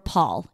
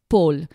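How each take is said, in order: First: It is said with an American accent. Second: It is said with a French accent.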